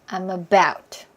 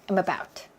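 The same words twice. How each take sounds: First: It is said fairly slowly. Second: It is said fast.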